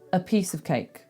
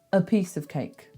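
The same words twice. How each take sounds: First: The words 'a' and 'of' are reduced to schwas. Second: The same.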